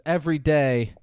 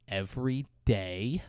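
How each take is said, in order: First: "Every day." falling, as a statement; confessing EVERY DAY. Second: Soft, slow "Every day?" rising at the end; questioning EVERY DAY. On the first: Stu confesses to Kelly, "Every day." with falling finality. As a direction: drop "day" to a firm close. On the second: Villain prods Stu's confession, "Every day?" slow and rising. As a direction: lift "day" as a quiet, probing question. Jack Bauer prompts the confession. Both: Retold or imitated.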